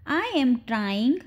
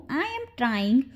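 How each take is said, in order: First: Slow, measured demonstration; slow down for learners to copy; slow model repeat. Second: Said in the usual way. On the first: Shown as a demonstration. Teacher repeats the short sentence for learners, slowly.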